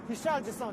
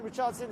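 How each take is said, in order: First: The name is said with Japanese pronunciation. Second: The name is said with English pronunciation. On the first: "is the Japanese pronunciation" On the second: "is probably the English pronunciation"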